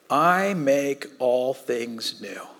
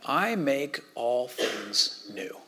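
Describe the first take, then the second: First: Slow, solemn. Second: Very slow and soft, each word weighed; slow, solemn proclamation. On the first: God speaking from throne. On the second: God from the throne, slow and soft. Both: Acted.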